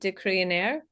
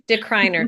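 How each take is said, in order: First: The name is said with its original-style vowels. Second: The name is said with English-style vowels. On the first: "that would be the phonetic way you would say it" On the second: "we like our anglicized version, we just say decriner"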